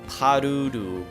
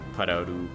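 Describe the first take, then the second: First: The stress is on the first syllable. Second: The stress is on a later syllable. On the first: The speaker calls it right. "Emphasis on the first syllable" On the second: The speaker calls it wrong. "I'm sorry"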